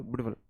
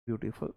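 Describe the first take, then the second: First: ब्यूटीफुल rushed with no inner gap; run-together pronunciation. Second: ब्यूटीफुल softly with a tiny gap before फुल; gapped pronunciation. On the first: Teacher showing how nobody says it, ब्यूटीफुल run together without a gap. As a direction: squash ब्यूटीफुल into one quick soft burst. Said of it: "ऐसा तो नहीं बोलते कोई". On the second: Teacher showing the gap to students, ब्यूटीफुल lightly split in two. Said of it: "ब्यूटीफुल में gap आया". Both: Shown as a demonstration.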